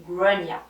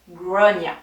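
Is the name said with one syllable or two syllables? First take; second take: two; two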